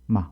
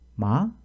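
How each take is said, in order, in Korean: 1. 음이 급하고 갑자기 뚝 떨어집니다. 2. 끝에서 음이 빠르게 올라갑니다. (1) "급격히 떨어뜨리는 것입니다" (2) "이렇게 뒤를 빠르게 올리는 소리입니다"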